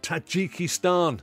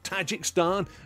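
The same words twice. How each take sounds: First: The word is said with the extra 'i' vowel. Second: The word is said without the extra 'i' vowel. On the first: The speaker calls it right. "the correct pronunciation of Tajikistan" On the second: The speaker calls it wrong. "sixty-one years of Tajikistan has been altered"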